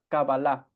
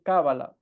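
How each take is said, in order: First: The word is said with its Hebrew pronunciation. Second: The word is said with its Spanish pronunciation. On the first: This is the original form of the term. "La pronunciación correcta en hebreo es" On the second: This is the form the listener already knows. "Hay ocasiones en que puedo decir"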